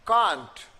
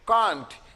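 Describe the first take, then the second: Both takes have the same delivery.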